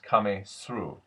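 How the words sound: Through starts with an 's' sound.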